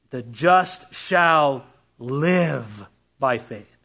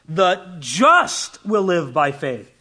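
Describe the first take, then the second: First: The stress is on "live". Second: The stress is on "just".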